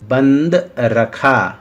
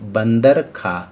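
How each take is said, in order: First: The break comes after 'band'. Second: The break comes after 'bandar'. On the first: Kept closed. "फल बंद रखा गया है" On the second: Monkey ate. "और इधर देखिए बंदर खा"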